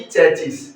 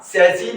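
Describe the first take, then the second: First: चेचिस said slowly as "CHE-chis"; slow चेचिस with two ch sounds; wrong pronunciation. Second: सैसी said slowly as "SAS-ee"; slow सैसी with s sounds, silent final s; correct pronunciation. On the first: Teacher warning against the common error, slowly mispronounced "che-chis". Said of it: "न कि". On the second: Teacher contrasting right with wrong, slowly pronounced "sas-ee". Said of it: "इसका pronunciation क्या होगा". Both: Shown as a demonstration.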